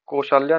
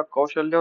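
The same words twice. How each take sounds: First: कौशल्या said 'ko-shaa-lya'; wrong vowels. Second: Said in the usual way. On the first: Shown as a demonstration. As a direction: say कौशल्या with 'o' and a long middle 'aa'. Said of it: "नहीं होता". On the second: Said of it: "होता है".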